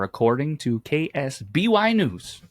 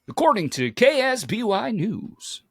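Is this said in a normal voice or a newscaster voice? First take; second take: normal; newscaster. First: It is said in an ordinary conversational voice. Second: It is said in a put-on newscaster voice.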